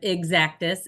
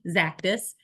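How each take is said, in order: First: The name begins with an 'ex' sound. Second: The name begins with a plain z sound. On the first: The speaker calls it wrong. "We hear a lot of exactus" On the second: The speaker calls it right. "pronounced like Zactus with a Z. So think about cactus with a Z"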